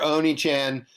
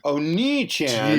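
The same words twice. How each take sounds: First: The vowel after the n is short. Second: The vowel after the n is long. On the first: It means a demon rather than a big brother. The speaker calls it wrong. "you just called him Demon Chan though" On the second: It means big brother. The speaker calls it right.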